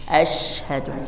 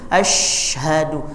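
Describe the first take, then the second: First: The sh spreads through an open mouth. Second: The sh is made only at the front. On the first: The speaker calls it right. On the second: The speaker calls it wrong. "biasanya hanya depan saja, tidak memenuhi mulut"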